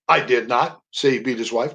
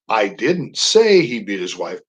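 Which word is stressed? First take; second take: not; say. First: The stress falls on the word not. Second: The stress falls on the word say. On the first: The speaker denies having said it. "That's a statement of denial" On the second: The speaker implied it without saying it. "That's a statement of implication"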